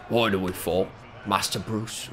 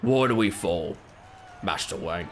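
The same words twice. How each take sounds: First: Low, quieter stab at the butler; gravely earnest mock butler line; corrected take, still a light butler impression; Alfred from The Batman. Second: Low, soft, lightly British butler voice; a half-hearted go at the old butler; mock solemn butler line; Alfred from The Batman. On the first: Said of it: "But he's like". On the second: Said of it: "He goes".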